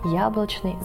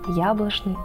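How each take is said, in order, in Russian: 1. Слово произнесено в современном варианте произношения. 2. Слово произнесено в более старом варианте произношения. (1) "Сегодня же норма изменилась, и мы говорим" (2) "В 40-х годах 20 века нормой было произносить"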